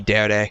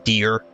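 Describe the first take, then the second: First: It is said as two syllables, deh-reh. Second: It sounds like the English word deer. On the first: The speaker calls it right. "It is supposed to be dere" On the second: The speaker calls it wrong. "I always pronounced the D E R E as deer"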